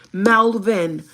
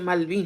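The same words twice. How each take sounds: First: Loud, irritated correction of Malvin; imitated angry "MAL-ven", punched loud. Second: Malvin with a Spanish-style "-veen" ending; imitating dad's accented Malvin. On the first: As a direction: snap out Malvin, mimicking an offended man. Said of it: "así como muy enojado". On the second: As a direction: say Malvin as "mal-VEEN", unforced.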